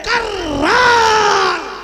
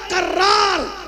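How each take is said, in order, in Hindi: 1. यह शब्द नाटकीय और ज़ोरदार अंदाज़ में कहा गया है। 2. यह शब्द सादे, सामान्य ढंग से कहा गया है। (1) "मेरा अपना लहजा है कर्रार कहने का।" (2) "ऐसे नहीं कहता"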